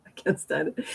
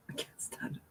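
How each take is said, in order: First: Said in the usual way. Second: Breathy whispered confession; hushed, voiceless whisper. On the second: Shown as a demonstration. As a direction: whisper it as if ashamed.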